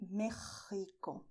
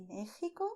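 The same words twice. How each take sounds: First: Mexico with strong scraped kh; stronger throat sound. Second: Mexico with x as soft h; gentle breath of h in Mexico; soft throat sound. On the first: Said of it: "or a little stronger". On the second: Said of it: "soft, with your throat". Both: Shown as a demonstration.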